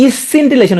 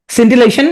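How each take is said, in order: First: "ইসসিন্টিলেশন" with an added opening "ইস"; spelling pronunciation. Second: Said in the usual way. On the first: Shown as a demonstration. Teacher telling students to pronounce it so, extra first syllable. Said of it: "উচ্চারণ করবা". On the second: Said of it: "উচ্চারণ করবা কি".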